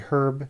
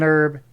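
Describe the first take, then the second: First: The word starts with an audible H sound. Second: The word starts without an H sound. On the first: "a herb" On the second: "An herb"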